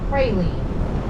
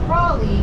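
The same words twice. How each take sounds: First: It is said the way other regions say it. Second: It is said the local New Orleans way. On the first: This is how people elsewhere say it. "Other parts of the country call it a praline" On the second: This is how people here say it. "Here it's a praline because we mispronounce everything"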